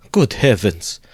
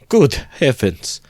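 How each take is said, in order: First: A touch of a startled exclamation; understated dismay; mild cry. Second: Much higher, louder and slow, drawn-out dismay; shocked to the core by the news; appalled outcry; horrified cry. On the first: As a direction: gasp it out, only lightly shocked. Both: Acted. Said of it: "Cried Pulcheria Alexandrovna".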